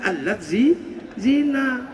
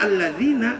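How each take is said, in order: First: The word is split with a break before 'zina'. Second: The word is said smoothly as one unit.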